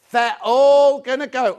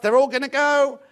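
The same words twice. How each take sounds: First: They're all gonna go, slower and louder with weight on all; slow emphatic repeat. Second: Said in the usual way. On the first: Real, not acted. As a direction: lean on all, drawn out and loud.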